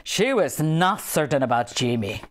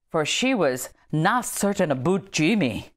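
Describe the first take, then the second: First: "she was not certain about Jimmy" with a gentle Scottish accent, lower; light Scottish accent. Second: Said in the usual way. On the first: Shown as a demonstration. Rereading the Jimmy line, light Scottish accent. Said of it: "a little accent". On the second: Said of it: "that's supposed to be read in a".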